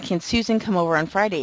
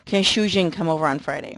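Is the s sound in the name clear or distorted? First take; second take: clear; distorted. First: The s sounds in the name are clear. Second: The s sounds in the name are slushy. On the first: The speaker calls it right. "instead of saying" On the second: The speaker calls it wrong. "it sounds like Shujin"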